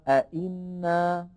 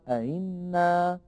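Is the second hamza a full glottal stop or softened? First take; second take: full stop; softened. First: The second hamza is a full glottal stop. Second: The second hamza is softened, not fully pronounced. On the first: "أصلها" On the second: "فيقولها"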